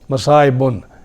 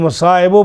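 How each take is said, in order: First: The word ends with an added n sound. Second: The word ends on a plain vowel. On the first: The poem's meter fits. The speaker calls it right. "मसाइबुन, ज़रूरत शेरी के लिए" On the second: The poem's meter does not fit. The speaker calls it wrong. "लेकिन मसाइबो पढ़े तो वज़न सही नहीं बनता"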